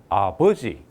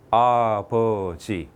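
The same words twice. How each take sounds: First: The stress is on the second syllable. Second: All three syllables have equal stress. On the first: The speaker calls it wrong. "두 번째 줬습니다. 강세를" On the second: The speaker calls it right. "똑같은 세 개의 음절로 되어 있죠"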